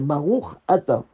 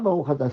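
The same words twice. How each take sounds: First: The two words are kept clearly apart. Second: The final ch runs straight into the vowel. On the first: The blessing is valid. The speaker calls it right. "c'est Baruch Ata. Donc, bien faire attention de séparer" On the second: The blessing does not count. The speaker calls it wrong. "il n'y a pas Baruch Ata"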